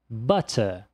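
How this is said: The middle consonant is a crisp t sound. "Olha só como o som de T existe no britânico"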